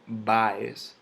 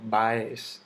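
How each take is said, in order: First: "Baez" stressed on the first syllable, BA-ez; drawn-out "Baez" as BÁez. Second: "Baez" stressed on the second syllable, ba-EZ; mis-stressed "Baez" as BaÉZ; wrong stress on EZ. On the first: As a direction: lean slowly on BA in "Baez". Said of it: "yo digo". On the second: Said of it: "yo no digo". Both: Shown as a demonstration.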